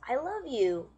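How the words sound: It is said in a happy tone. "somebody that's happy and says"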